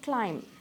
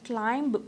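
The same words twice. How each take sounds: First: The final b is silent. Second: The final b is pronounced. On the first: The speaker calls it right. "यहाँ पे भी बी is silent" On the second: The speaker calls it wrong. "इसे हम क्लाइंब पढ़ते हैं जो कि wrong है"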